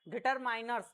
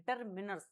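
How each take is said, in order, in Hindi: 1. बीच के शब्दांश में 'eye' स्वर है। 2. बीच के शब्दांश में छोटा 'i' स्वर है। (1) "कई जो लोग होते हैं वो डिटरमिनर्स की जगह डिटरमाइनर्स डिटरमाइनर सब प्रोनाउंस करते हैं" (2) "इसका जो सही प्रोनाउंसिएशन है ना वो है अपन का डिटरमिनर्स"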